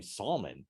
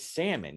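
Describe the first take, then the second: First: "salmon" as SAWL-mun, L sounded; "salmon" said slowly as SAWL-mun; mispronounced salmon. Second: "salmon" as SAM-un, silent L; correct pronunciation. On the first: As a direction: put an audible L in "salmon". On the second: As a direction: drop the L in "salmon". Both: Acted. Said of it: "You keep saying salmon".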